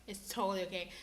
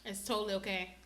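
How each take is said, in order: Both takes have the same delivery.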